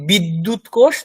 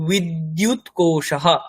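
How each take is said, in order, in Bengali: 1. বাক্যাংশটির শেষে কোনো শ্বাসযুক্ত h-ধ্বনি নেই। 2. বাক্যাংশটির শেষে একটি শ্বাসযুক্ত h-ধ্বনি আছে। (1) "তাহলে ভুল হবে" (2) "মনে রাখতে হবে যে বিদ্যুৎ কোষাহ"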